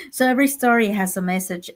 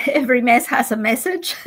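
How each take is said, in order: First: Said in the usual way. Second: Laughing saying. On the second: Real, not acted. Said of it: "like we say".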